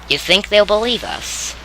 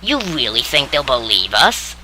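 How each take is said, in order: First: It is said as a sincere question. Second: It is said with a mocking, sarcastic tone.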